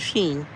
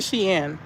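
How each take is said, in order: First: The name is said as 'sheen'. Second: The name is said as 'she-in'. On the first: This is how other people say it. "but people say Sheen" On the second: This is how the speaker says it. "I say Shein"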